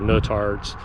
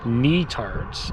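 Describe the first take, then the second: First: The first syllable does not sound like 'knee'. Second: The first syllable sounds like 'knee'. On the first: The speaker calls it wrong. "not Nutarts" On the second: The speaker calls it right. "like the knee that's on your leg, and tarts"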